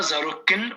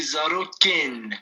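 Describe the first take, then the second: First: "zaro ken" said the wrong way, with a plain flat e in "ken"; teacher models the mistake in "zaro ken", unaccented e; wrong Kurdish vowel. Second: "zaro ken" said properly, with the accented ê in "ken" clearly voiced; teacher models the right "zaro ken", ê with its accent; correct Kurdish vowel. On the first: Teacher showing students the wrong pronunciation of "zaro ken". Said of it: "on dit pas zaro ken". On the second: Teacher correcting a student's pronunciation of "zaro ken". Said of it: "on dit zaro ken". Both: Shown as a demonstration.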